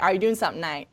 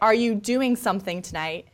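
First: The words are slurred together in a drawl. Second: The words are said clearly and separately. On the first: "And we say" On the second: "People say"

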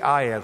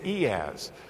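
First: It is said the way English speakers usually say it. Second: It is said the way Europeans usually say it. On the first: "English speakers say IaaS" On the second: "Europeans mostly say EaaS"

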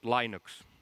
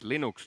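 First: Linux is pronounced the American way. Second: Linux is pronounced the Finnish way. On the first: This is how people in the US say it. The speaker calls it wrong. "not Linux. US people say Linux" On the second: This is how the creator's own people say it. The speaker calls it right. "it's Linux"

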